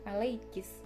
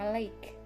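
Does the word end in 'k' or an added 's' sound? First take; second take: s; k. First: The word ends with an added 's' sound. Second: The word ends in a 'k' sound. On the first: This is a dialect form. "ketambahan huruf sin" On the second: This is the original form. "jadi ada kata"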